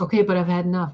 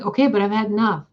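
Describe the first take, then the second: First: Said in the usual way. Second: "Okay, but I've had enough" faster and louder, pushing back; repeated protest, sped up and exasperated. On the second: Retold or imitated. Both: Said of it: "And I'm like".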